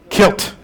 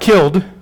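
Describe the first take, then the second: First: The word ends with a sharp t sound. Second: The word ends with a soft d sound. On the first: Someone has been dead a long time. "Kilt is when you've been kilt a long time" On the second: Someone has just recently died. "Not killed"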